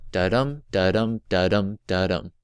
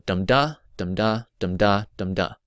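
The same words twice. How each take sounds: First: Chanted, da-DUM four times, evenly, stress on each "dum"; chanted, beat out light "da", stressed "dum"; chanted iambic rhythm. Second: Chanted, DUM-da four times, evenly, stress on each "dum"; chanted, beat out stressed "dum", lighter "da"; chanted trochaic rhythm. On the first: Chanted, teacher sounding out a line of iambs, "dum" stressed each time. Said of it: "So I am would sound like". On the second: Chanted, teacher sounding out a line of trochees, "dum" leading each foot. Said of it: "Trochee would sound like". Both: Shown as a demonstration.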